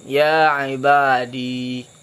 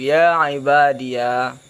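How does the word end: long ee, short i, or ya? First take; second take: long ee; ya. First: The word ends in a long ee sound. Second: The word ends with an added ya syllable. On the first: "menyebutkan ya hal keadaannya itu sakin" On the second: "menyebutkan ya hal keadaan difathahkan"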